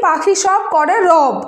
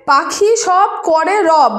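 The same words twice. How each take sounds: First: রব said as robo, with the o sound added at the end; পাখি সব করে রব with রব ending in an o; quick everyday reading. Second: Slow, careful পাখি সব করে রব with রব said as written, rob; slow dictation of পাখি সব করে রব; spelled-out reading. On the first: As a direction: say রব the way it slips out in fast speech, as robo. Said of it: "তাড়াতাড়ির ক্ষেত্রে এটা আমরা উচ্চারণ করি কি". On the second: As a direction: read রব slowly with a plain short o. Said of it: "রব বানানটা কি লিখি আমরা?". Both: Shown as a demonstration.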